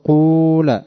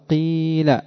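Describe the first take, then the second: First: The first vowel is a pure u sound. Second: The first vowel is a pure i sound. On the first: "ضم الخالص أن تقول قول" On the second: "والكسر الخالص أن تقول قيل"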